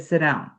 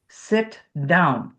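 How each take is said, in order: First: The two words are blended together without a gap. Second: The two words are separated by a small gap. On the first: This is the American way of saying it. "which is what Americans would do. We'd blend it right there. We'd link it" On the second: This is the British way of saying it. "So on sit down, there's a little space between"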